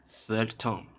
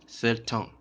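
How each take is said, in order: Both takes have the same delivery.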